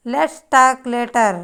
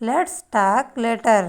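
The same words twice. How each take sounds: The two takes are said the same way.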